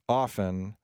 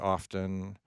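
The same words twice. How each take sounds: First: It is said the older generation's way. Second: It is said the younger generation's way. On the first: "People who are old, like me, tend to say often" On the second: "Younger people tend to say often"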